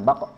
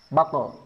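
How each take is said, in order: First: The final q only bounces, with no vowel. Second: A full vowel is added after the final q. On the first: The speaker calls it right. "Tapi betul-betul pantulan" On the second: The speaker calls it wrong. "bukan sengaja ditambah vokal e"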